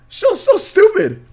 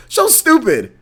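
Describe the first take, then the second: First: Slow, high, stretched "so stupid"; dwelling on "so" with a high, slow sneer; drawn-out scorn. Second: Dismissive. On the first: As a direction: drag it out in mock disgust. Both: Real, not acted. Ranting about the show.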